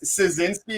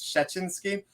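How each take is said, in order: First: The surname is pronounced with English sounds. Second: The surname is pronounced with Polish sounds. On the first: "So it's Szynski in English" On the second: "in Polish it's uh, it's Polish it's Szczecinski"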